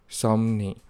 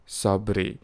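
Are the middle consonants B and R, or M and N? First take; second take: M and N; B and R. First: The middle consonants are M and N. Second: The middle consonants are B and R. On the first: "Notice that the B and the R sounds are replaced into M and N sounds" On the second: "which is often transliterated as Sabri"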